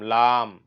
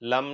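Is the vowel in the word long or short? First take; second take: long; short. First: The vowel is long and drawn out. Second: The vowel is short and clipped. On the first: The speaker calls it right. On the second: The speaker calls it wrong.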